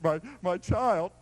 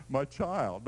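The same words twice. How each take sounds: First: Put-on My, my child drawn out slow and gentle; tender father. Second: Said in the usual way. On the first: Shown as a demonstration. Preacher voicing the father's true Greek tenderness, slow and tender. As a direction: linger on My, my child like a loving dad. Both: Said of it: "You have to read through the Greek".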